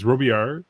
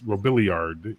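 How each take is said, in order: First: The name is said with a French pronunciation. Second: The name is said with an American pronunciation. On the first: "in, in, in French" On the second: "in American"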